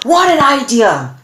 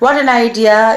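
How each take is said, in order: First: It is said with sudden, strong emotion. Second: It is said in a flat, droopy way.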